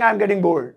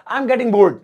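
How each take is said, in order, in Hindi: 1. अंतिम d लगभग silent बोला जाता है। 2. अंतिम d साफ़ बोला जाता है। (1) "यहां पे डी थोड़ा सा साइलेंट रखेंगे" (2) "डी लगाना पड़ेगा भैया"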